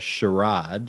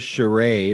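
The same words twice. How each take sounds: First: The word is said in an imitated, mocking pronunciation. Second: The word is said in a normal pronunciation. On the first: "or as Geordie would say" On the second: "It's not only a charade"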